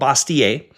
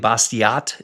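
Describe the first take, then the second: First: The name is said with a French pronunciation. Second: The name is said with an English pronunciation. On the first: This is likely how it was originally said. "He's French. It was probably uh" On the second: This is how most people say it. "how a lot of people pronounce it"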